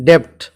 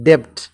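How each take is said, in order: Both takes have the same delivery.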